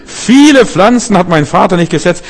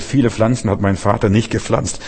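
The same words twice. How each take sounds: First: Viele hit higher and louder, the rest of the quote raised and louder too; emphatic quote stressing Viele. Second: Said in the usual way. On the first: Shown as a demonstration. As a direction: lean hard on Viele to show the shock. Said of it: "Ich war entsetzt". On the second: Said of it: "Ich hab gedacht, einige Pflanzen".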